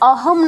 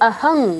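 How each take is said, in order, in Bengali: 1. শব্দটি m ধ্বনি দিয়ে শেষ হয়। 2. শব্দটি ng ধ্বনি দিয়ে শেষ হয়। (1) "এখানে অহম না হয়ে" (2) "অহং হবে"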